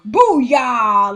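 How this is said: It is said in an over-the-top, corny way.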